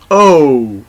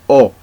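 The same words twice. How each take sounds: First: The letter is said with an English sound. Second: The letter is said with a Spanish sound. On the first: "the next one will be O in English" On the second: "but in Spanish is O, like this"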